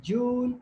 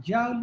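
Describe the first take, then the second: First: "joule" said as JOOL, rhyming with pool; alternative pronunciation. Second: "joule" said as JOWL, rhyming with owl; alternative pronunciation. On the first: Teacher showing students one way some people say it, "joule" as JOOL. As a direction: say "joule" with a long oo. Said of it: "Some people call it joule". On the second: Teacher showing students the other way people say it, "joule" as JOWL. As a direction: say "joule" with an ow vowel. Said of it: "some people pronounce it joule". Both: Shown as a demonstration.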